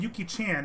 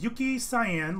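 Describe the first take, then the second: First: The second word sounds like 'chan'. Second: The second word sounds like the color cyan. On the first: "as the Japanese pronunciation" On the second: "like the color"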